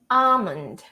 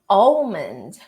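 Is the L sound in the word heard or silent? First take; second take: silent; heard. First: The L sound is left out entirely. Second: The L sound is pronounced in the middle. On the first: The speaker calls it right. "you're gonna pronounce the A and you're gonna go directly to the M" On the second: The speaker calls it wrong. "we tend to think it's pronounced as om, om, almond"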